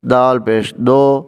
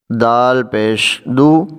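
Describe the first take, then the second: First: دو said as do with an o vowel; common mistake. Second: دو said with a clear u vowel, slowly; correct du. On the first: Retold or imitated. Teacher imitating how people wrongly say do instead of du. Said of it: "لوگ پڑھتے ہیں". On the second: Shown as a demonstration. Teacher showing the correct dal with pesh, du. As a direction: say دو as du, slightly slow. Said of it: "دو پڑھنا".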